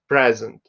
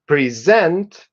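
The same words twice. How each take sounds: First: The stress is on the first syllable. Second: The stress is on the second syllable. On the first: It is used as a noun. "the noun is present" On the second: It is used as a verb. "The verb is present"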